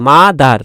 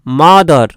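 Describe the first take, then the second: First: "মাদার" with the last vowel as open আ, like ma-dar; "মাদার" pronounced ma-dar, not ma-dor; a-sound ending. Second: "মাদার" with the last vowel as অ, like ma-dor; "মাদার" pronounced ma-dor, not ma-dar; o-sound ending. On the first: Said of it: "আ উচ্চারণ করে". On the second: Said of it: "অ উচ্চারণ করে অনেকে". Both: Shown as a demonstration.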